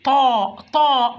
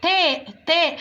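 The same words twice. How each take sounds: First: "طاء" with a heavy, dark t; full-mouthed emphatic. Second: "تاء" with a light front t and e-like vowel; light thin letter. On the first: Teacher demonstrates the emphatic letter, full-mouthed "طاء". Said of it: "بملى بقي كده بالحرف". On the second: Teacher contrasts it with taa, thinned "تاء". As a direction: keep "تاء" thin, not emphatic. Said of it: "التاء حرف مرقق". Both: Shown as a demonstration.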